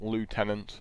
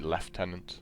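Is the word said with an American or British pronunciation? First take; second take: American; British. First: It is said with an American pronunciation. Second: It is said with a British pronunciation. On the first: "as the Americans would say" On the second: "we'd say Lieutenant, being English"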